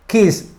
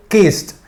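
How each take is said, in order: First: "Kiss" ending on a clean hissed s; voiceless ending. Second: "Kissed" as "kist", with a crisp final t. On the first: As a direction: finish "Kiss" on s alone, with no t. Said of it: "Ese sonido es un sonido sordo". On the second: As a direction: add a released t to end "Kissed". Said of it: "al final con T". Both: Shown as a demonstration.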